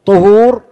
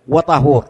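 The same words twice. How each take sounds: First: طهور said as tuhur with a rounded first vowel; طهور loud and rising, as tuhur; with damma. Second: وطهور said as watahur with an open a; وطهور falling, with a after the t; with fatha. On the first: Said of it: "فالطهور بالضم هو الفعل نفسه". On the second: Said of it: "فعندنا ضم وعندنا فتح". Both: Shown as a demonstration.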